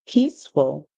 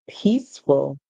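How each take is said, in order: Both takes have the same delivery.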